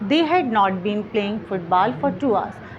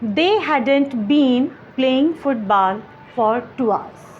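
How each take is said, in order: First: Had not is said as two full words. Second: Had not is shortened to one word. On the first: "saying had not" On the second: "short form या contraction word"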